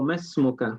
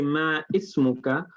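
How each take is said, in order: First: The i-vowel is dropped and the words join. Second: The i-vowel of ismuka is pronounced separately. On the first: The speaker calls it right. "It should be ma masmuka" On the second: The speaker calls it wrong. "Ma ismuka is a very common mistake"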